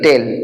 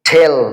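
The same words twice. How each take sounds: First: The t is a soft, dental sound. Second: The t is a hard, crisp sound. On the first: The speaker calls it wrong. "আমরা বলি টেল টেল টেলটা ভুল this is the wrong pronounce" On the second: The speaker calls it right. "It would be correctly টেল টেল"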